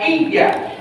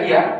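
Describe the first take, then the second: First: The y sound is doubled and held. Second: The y sound is single and short. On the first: It means to you alone. The speaker calls it right. "Karena ada tasdid" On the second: It means the sun. The speaker calls it wrong. "kalau kita baca iya saja"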